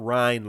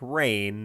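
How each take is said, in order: First: The vowel sounds like the one in 'rind'. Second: The vowel sounds like the one in 'rain'. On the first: The speaker calls it wrong. "not rind like pork rinds" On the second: The speaker calls it right. "I think it's rain like rain"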